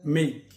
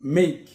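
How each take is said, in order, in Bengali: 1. স্বরধ্বনিটি শোনায় day-এর a-এর মতো। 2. স্বরধ্বনিটি শোনায় day-এর a-এর মতো।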